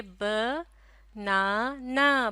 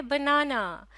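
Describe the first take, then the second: First: "ब, ना, ना" in separate drawn-out beats; syllable by syllable. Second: Said in the usual way. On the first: Shown as a demonstration. Teacher showing a child how to say the word, syllable by syllable. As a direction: break it into "ब", "ना", "ना" with pauses. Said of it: "किस तरह से कहेंगे?". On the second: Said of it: "बनता है".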